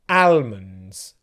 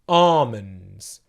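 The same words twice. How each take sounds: First: The L sound is pronounced in the word. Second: The L sound is silent in the word. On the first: The speaker calls it wrong. "people pronounce this word like this usually" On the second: The speaker calls it right. "you do not pronounce the L sound. So it would sound like this"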